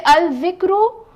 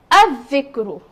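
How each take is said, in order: First: "al dhikru" with the lam sounded; wrong pronunciation. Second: "al dhikru" with silent lam, like "adh-dhikru"; doubled dhal. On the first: Teacher asking students about the wrong sun-letter form. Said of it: "will I say". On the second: Teacher modelling the right tashdeed form. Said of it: "I will say". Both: Shown as a demonstration.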